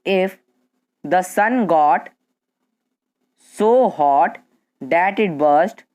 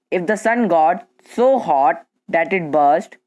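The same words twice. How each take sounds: First: Slow, chunked phrase for students to write; slow dictation. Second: Said in the usual way. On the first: Shown as a demonstration. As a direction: spell it out slowly so they can keep up. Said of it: "अगर slow बोले तो". (धीमे-धीमे लिखवाने वाली आवाज़) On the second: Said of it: "अगर हम fast बोले".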